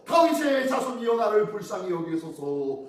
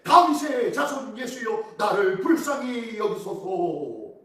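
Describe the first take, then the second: First: Crying louder. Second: Crying out. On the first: Beggar cries to Jesus despite the crowd, crying louder. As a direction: plead aloud, pitched up on the first phrase. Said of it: "더욱 크게 소리질러". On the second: Blind beggar begs Jesus for mercy, crying out. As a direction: cry it out slowly, stretching each phrase. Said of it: "맹인이 외쳐오고 이르되". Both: Acted.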